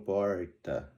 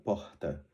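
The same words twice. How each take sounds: First: The R has a rural regional accent quality. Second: The R is only a soft breathy sound. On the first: "alguns que no interior de São Paulo, por exemplo, falam porta" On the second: "só suspirado"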